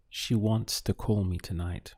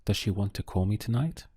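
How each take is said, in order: First: "She wants to call me tonight" falling at the end; statement intonation. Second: "Does she want to call me tonight" quick, rising on "tonight"; fast English question tune climbing to "tonight"; question intonation. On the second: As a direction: ask it briskly, lifting "tonight". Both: Shown as a demonstration. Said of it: "ask that same thing".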